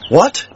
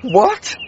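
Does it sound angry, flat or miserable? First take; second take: flat; miserable. First: It is said flatly, without strong feeling. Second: It is said in a miserable, grieving tone.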